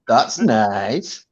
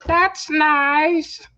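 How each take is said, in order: First: Mock polite reply; deadpan that's nice. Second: Higher, mock-polite that's nice. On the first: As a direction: say it like a bored shopkeeper. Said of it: "go, "That's nice". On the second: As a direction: parrot the catchphrase. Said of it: "we just say".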